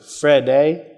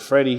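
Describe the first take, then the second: First: The name ends with an 'ay' sound. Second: The name ends with an 'ee' sound. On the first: This is how someone else said the name. "He pronounced it Fredday" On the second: This is the usual way to say the name. "he didn't pronounce it Freddie"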